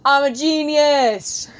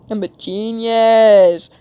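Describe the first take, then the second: First: Slow drawn-out self-praise; proud exclaim. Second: Slow, loud triumphant cry; louder proud shout. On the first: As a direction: gloat playfully over the idea. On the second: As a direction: declare it to the room. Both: Real, not acted. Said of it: "I just got an idea".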